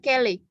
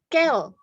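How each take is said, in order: First: It ends with an extra vowel sound. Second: It ends on the consonant without a vowel. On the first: The speaker calls it wrong. "tidak dibaca kele" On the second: The speaker calls it right. "Enggak ada bunyi e"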